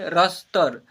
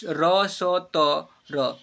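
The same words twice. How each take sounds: First: Said in the usual way. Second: "र स त र" very slow, each letter its own syllable. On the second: Shown as a demonstration. Teacher quizzing learners on "र स त र", letter by letter. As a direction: spell out "र स त र" with long vowels and gaps. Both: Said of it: "क्या पढ़ेंगे?".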